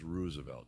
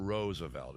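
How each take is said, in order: First: Roosevelt said as ROOZ-uh-velt; "Roosevelt" with an OO like ruse; OO in first syllable. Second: Roosevelt said as ROSE-uh-velt; "Roosevelt" with a long O like rose; long O in first syllable. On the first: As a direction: rhyme the start of Roosevelt with ruse. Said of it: "it's Roosevelt. Two O's". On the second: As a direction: rhyme the start of Roosevelt with rose. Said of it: "that's how they said it. Oh, it's not". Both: Shown as a demonstration.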